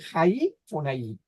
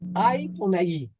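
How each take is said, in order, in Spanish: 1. La primera palabra empieza con un sonido de h. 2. La primera palabra empieza con una vocal simple. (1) "aquí debemos decir" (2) "¿Lo dije mal?"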